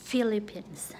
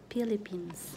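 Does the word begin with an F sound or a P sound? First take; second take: F sound; P sound. First: The word begins with an F sound. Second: The word begins with a P sound. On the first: The speaker calls it right. "like Philippines" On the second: The speaker calls it wrong. "not Philippines"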